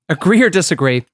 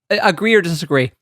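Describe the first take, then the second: First: Each word is spoken clearly and distinctly. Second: The words run together and sound slurred. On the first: The speaker calls it right. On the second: The speaker calls it wrong.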